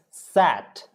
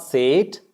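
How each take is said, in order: First: "sat" with an open, short A; correct pronunciation. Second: "sate" with a long AY vowel; wrong pronunciation. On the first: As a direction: open the mouth on the vowel of sat. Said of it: "it's sat". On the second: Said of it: "is not sate". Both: Shown as a demonstration.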